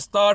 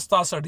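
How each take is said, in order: First: It is said as 'sataahath' with an h. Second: It is said as 'sataasath' with an s. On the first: "कुछ लोग बोलते हैं सताहठ" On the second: "और कुछ लोग बोलते हैं सतासठ"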